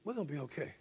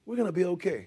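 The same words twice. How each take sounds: First: Quiet, gentle comfort to a friend; hushed reassuring words; soft reassurance. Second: Said in the usual way. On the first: Shown as a demonstration. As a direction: say it softly, like calming him down. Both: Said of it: "And I was able to say".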